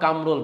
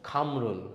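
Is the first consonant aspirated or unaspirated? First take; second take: unaspirated; aspirated. First: The first k sound has no puff of air. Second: The first k sound has a strong puff of air. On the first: The speaker calls it right. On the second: The speaker calls it wrong.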